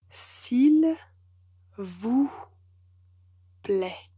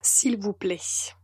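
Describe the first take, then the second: First: It is said slowly and carefully. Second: It is said at a normal pace.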